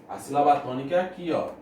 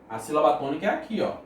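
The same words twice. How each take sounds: The two takes are said the same way.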